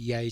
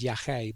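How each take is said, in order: First: The word is said with an anglicized pronunciation. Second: The word is said with its native pronunciation. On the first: It follows how the word was typed. The speaker calls it wrong. "Sorry for pronouncing it Yage" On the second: It is the drug's real name. The speaker calls it right. "I know the drug is Yache"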